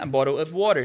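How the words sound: It is said in an American English accent. "no americano eu vou falar a bottle of water"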